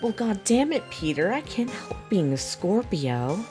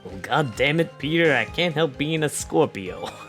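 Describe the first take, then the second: First: It is spoken in a put-on character voice. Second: It is spoken in an ordinary, unaltered voice.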